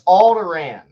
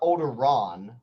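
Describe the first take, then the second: First: The last syllable does not rhyme with 'Ron'. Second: The last syllable rhymes with 'Ron'. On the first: The speaker calls it right. "So it's Alderaan" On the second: The speaker calls it wrong. "it's not Alderaan like Ron Weasley"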